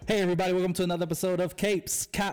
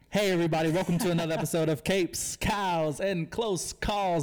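First: It is said fast. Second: It is said slowly.

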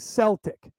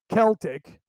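First: It is said the way the Scottish say it. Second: It is said the way the Irish say it.

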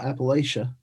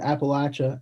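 First: It uses the outsider pronunciation. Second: It uses the local regional pronunciation. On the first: Said the way people from outside the region say it. The speaker calls it wrong. "and not Appalachia" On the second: Said the way people from the region say it. The speaker calls it right. "we're saying Appalachia"

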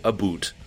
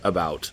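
First: It is said with a Canadian accent. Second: It is said with an American accent.

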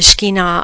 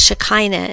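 First: The word is said with a Hebrew pronunciation. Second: The word is said with an English pronunciation. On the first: "I believe, is the Hebrew pronunciation" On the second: "most people in English pronounce it as Shekinah"

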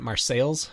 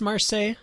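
First: The name is said the local Illinois way. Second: The name is said the expected, French-like way. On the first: This is how the locals actually say it. The speaker calls it right. "the Illinoisans pronounce it Marseilles" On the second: This is how an outsider would guess it. The speaker calls it wrong. "You would think it's Marseille"

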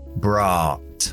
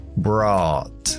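No difference in how they are said.

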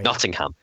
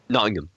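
First: Nottingham is pronounced the American way. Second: Nottingham is pronounced the British way. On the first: The speaker calls it wrong. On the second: The speaker calls it right.

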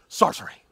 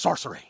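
First: It is said in a pompous, arrogant voice. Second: It is said in a plain, ordinary voice. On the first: The speaker calls it right. "This is how he talks, in my head. Just very pompous, very arrogant" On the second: The speaker calls it wrong. "I didn't say it right at first"

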